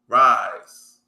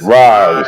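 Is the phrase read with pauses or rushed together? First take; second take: pauses; rushed. First: There is a short pause at each comma. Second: The words run together quickly without pauses. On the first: The speaker calls it right. "There you go" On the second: The speaker calls it wrong. "you going you going too fast"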